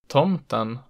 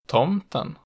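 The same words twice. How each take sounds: First: The pitch peaks on the stressed vowel. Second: The pitch peaks just after the stressed vowel. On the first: "peaking on the stressed vowel in accent 1" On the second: "just after it in accent 2"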